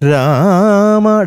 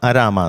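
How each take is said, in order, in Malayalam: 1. വാക്ക് നേരിട്ട് 'ra' ശബ്ദത്തിൽ തുടങ്ങുന്നു. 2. 'ra'യ്ക്ക് മുമ്പ് ഒരു അധിക 'a' സ്വരം വരുന്നു. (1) "രാമ ഡയറക്റ്റ് രാ" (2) "രണ്ടാമത്തെ അരാമ എന്ന് കേട്ടു"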